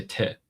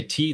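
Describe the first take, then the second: First: "te" with a short lax vowel after t; short "te" instead of an ee sound; Farsi letter name. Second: Said in the usual way. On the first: Shown as a demonstration. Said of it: "they say te". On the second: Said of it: "we say T".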